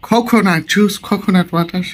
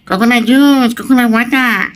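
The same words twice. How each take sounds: First: It is said in a plain, non-nasal voice. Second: It is said in a strongly nasal voice. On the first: Local listeners do not understand it. "সেটাও বোঝে না" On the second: Local listeners understand it. "একটু নাকা নাকা করে যদি বলেন তাহলে বুঝবে"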